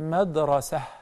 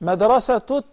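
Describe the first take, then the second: First: The word ends softly without a t sound. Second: The word ends with a t sound plus vowel. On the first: The speaker pauses after the word. "When we stop on it, we say madrasa. Ha" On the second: The word continues into the next word. "Then we pronounce the ta as ta"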